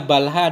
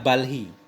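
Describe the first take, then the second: First: The final syllable has an 'a' vowel. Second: The final syllable has an 'i' vowel. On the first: This is the more common reading. "dengan fathah ha itu lebih banyak" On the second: This is the less common reading. "daripada kasrahnya ha"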